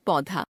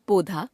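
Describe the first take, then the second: First: Said in the usual way. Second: पौधा as पोधा, closed o; wrong pronunciation. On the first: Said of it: "शुद्ध". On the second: Shown as a demonstration. Teacher showing a common error, पौधा with ओ sound. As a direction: narrow पौ to पो in पौधा. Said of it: "अशुद्ध".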